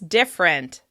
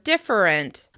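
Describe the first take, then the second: First: The word is said with two syllables. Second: The word is said with three syllables. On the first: "let's practice it as different" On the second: "Some people may pronounce the word different"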